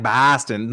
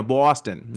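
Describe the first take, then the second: First: Boston with a flat "a", like "Baa-stun"; wrong vowel. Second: Boston with a rounded "aw" in the first syllable; aw vowel. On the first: Showing what it's not like, Boston said "Baa-stun". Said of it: "it's not like". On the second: Showing the real O sound, Boston said "Baw-stun". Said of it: "the O syllable is more like aw". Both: Shown as a demonstration.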